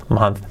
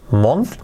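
First: "month" as MANTH, falling; corrected vowel. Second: "month" with an O as spelt, rising; wrong O vowel. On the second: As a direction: say "month" like a learner, with O. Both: Shown as a demonstration. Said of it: "month, repetir".

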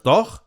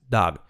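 First: "dog" with Spanish o and throaty ending; wrong pronunciation. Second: "dog" with open vowel and voiced g; correct pronunciation. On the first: Teacher showing the error, mispronounced "dog". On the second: Teacher correcting learners, correct "dog". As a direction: say "dog" close to "dahg". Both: Shown as a demonstration. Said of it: "Y no es dog".

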